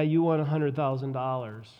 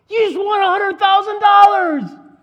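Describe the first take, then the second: First: It is said flatly, without excitement. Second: It is shouted with loud excitement. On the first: The news is hard to believe. The speaker calls it wrong. "Someone comes to you and said, yeah" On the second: The news is believable. The speaker calls it right. "jumping up and down, carrying the sign and yelling"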